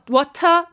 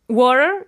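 First: It is said with a British accent. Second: It is said with an American accent.

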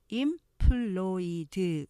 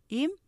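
First: It is broken into many separate syllables. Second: It has two syllables, stressing the last. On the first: The speaker calls it wrong. "이렇게 많은 음절로 발음하시면 안 되고요" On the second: The speaker calls it right. "이음절로 하시면서 뒤에 강조하시면"

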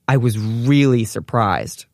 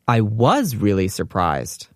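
First: The stress is on the word really. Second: The stress is on the word was.

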